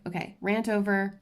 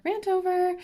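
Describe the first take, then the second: First: Said in the usual way. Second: Jumps way up high on "rant over"; chirpy high-pitched sign-off; high squeaky rant over. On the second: Real, not acted.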